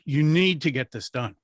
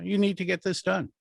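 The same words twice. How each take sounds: First: The emphasis falls so it sounds urgent. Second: The emphasis falls so it sounds casual. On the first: The task is important and immediate. The speaker calls it right. "that sounds important" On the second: The task is not immediate. The speaker calls it wrong. "that doesn't sound like it's it's got to be immediate because I hit the wrong word"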